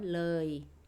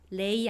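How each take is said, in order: First: The vowel sounds like 'uh-ee'. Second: The vowel sounds like 'ay'. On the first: The speaker calls it right. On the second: The speaker calls it wrong. "레이 아니에요"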